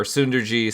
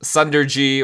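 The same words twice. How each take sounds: First: Sunderji with first vowel as in "soon"; alternative pronunciation. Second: Sunderji with first vowel as in "sun"; tentative pronunciation. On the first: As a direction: say Sunderji as SOON-der-jee. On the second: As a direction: say Sunderji as SUN-der-jee. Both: Shown as a demonstration. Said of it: "I don't know how to pronounce".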